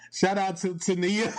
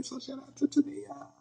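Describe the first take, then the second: First: Shout-out through a giggle; cheerful giggly shout-out; laughing as she greets her friend. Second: Much higher, softer squeal; high-pitched playful shout-out; squeaky shout-out. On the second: Repeating the friend shout-out. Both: Real, not acted.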